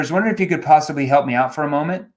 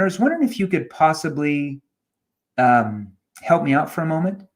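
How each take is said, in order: First: The request runs straight through without any pause. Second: A hesitant um pause breaks up the request. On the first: It prompts an automatic knee-jerk reaction. The speaker calls it wrong. "It's a knee-jerk question" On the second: It draws the listener in and makes them pay attention. The speaker calls it right. "why do I pause there? Because when you pause, it drags the listener in"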